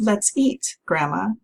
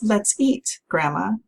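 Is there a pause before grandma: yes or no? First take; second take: yes; yes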